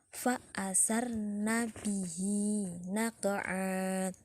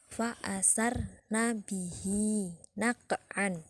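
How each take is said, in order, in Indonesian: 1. Kata terakhir berakhir dengan vokal panjang. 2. Kata terakhir berakhir dengan bunyi n.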